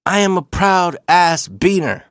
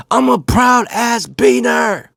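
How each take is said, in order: First: Higher, slow and emphatic; acting out a proud dad, not yet yelling; proud declaration. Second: High, drawn-out proud shout; acting out dad's proud holler, stretched out; yelling. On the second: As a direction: yell it out the car window. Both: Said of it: "he started yelling it".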